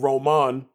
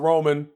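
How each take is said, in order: First: The name is pronounced the Spanish way. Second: The name is pronounced the English way.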